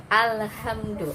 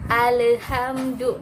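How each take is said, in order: First: Alhamdu slow with the l held, no bounce; Alhamdu, lam kept still; correct alhamdu. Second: Alhamdu slow and high with the l bounced; bounced wrong alhamdu. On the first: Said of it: "Nggak boleh mantul". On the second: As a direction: alhamdu drawn out, l rebounding. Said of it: "itu nggak boleh". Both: Shown as a demonstration.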